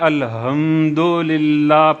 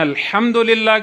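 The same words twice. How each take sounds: First: The h is a light, breathy sound. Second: The h is a harsh, throaty sound. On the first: All weaknesses belong to God. The speaker calls it wrong. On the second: All praise belongs to God. The speaker calls it right.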